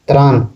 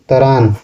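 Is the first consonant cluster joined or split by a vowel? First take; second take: joined; split. First: The tr cluster is said joined, without a vowel. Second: A vowel splits the t and r sounds. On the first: This is the standard Hindi form. "अत्र को तर use करते हैं" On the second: This is the Nagpuri form. "अत्र को तर use करते हैं"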